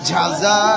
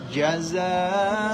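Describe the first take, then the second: First: The j is made with air escaping. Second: The j is made firmly without escaping air. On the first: The speaker calls it wrong. "ঝা জিব্বার আগা দিয়া করছে" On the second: The speaker calls it right. "জিব্বার মধ্যখান, মাখরাজ থেকে উচ্চারণ করেন"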